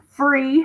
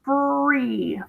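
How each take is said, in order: First: Said in the usual way. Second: "Free" drawn out as FRRR-EEE; sounded out. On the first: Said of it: "one syllable". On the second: Shown as a demonstration. Teacher asking about free, "Free" sounded out slowly and stretched. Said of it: "what about free?".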